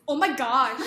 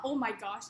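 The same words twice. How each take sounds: First: "oh my gosh" loud, rising and drawn out; bimbo inflection. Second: Said in the usual way. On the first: Shown as a demonstration. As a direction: gush "oh my gosh" with a valley-girl lilt. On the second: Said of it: "Note the inflection is not".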